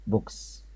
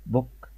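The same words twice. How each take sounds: First: "بوكس" soft with a final s hiss; "بوكس" with a clear s ending; plural "books". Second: "بوك" plain singular; "بوك" as the model word; singular "book". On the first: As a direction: breathe out the s of "بوكس". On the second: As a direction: say "بوك" clearly for repeating. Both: Shown as a demonstration. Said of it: "نقولهم مع بعض كلمات".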